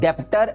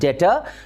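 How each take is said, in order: First: A b-like sound is heard before the t. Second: No b-like sound is heard before the t. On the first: The speaker calls it wrong. "It's never बी डेप्टर" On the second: The speaker calls it right. "It's डेटर"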